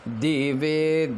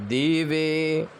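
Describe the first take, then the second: Both takes have the same delivery.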